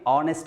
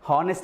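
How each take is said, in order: First: The word begins directly with a vowel sound. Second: The word begins with an audible h sound. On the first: The speaker calls it right. "దాన్ని ఆనెస్ట్ అని చదవాలి. ఇక్కడ కూడా మనకి హెచ్ అనేటటువంటిది సైలెంట్గా ఉంటుంది" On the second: The speaker calls it wrong. "జనరల్గా హానెస్ట్ అని చదువుతుంది"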